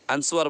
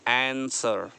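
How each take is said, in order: First: The word is said with a 'w' sound. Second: The word is said without a 'w' sound. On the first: The speaker calls it wrong. "लोग बोलते हैं आंसवर" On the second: The speaker calls it right. "आपको बोलना है आंसर"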